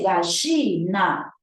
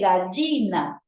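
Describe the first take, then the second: First: The middle consonant sounds like a ch. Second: The middle consonant is not a ch-like sound. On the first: "Él lo pronuncia como si fuera una consonante che" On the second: "No dice gallina"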